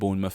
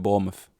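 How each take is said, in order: First: The n sound in the middle is pronounced. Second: The n sound in the middle is dropped. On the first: The speaker calls it wrong. "don't call it Bournemouth" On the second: The speaker calls it right. "they don't bother pronouncing the N"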